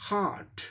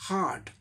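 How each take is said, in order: The two takes are said the same way.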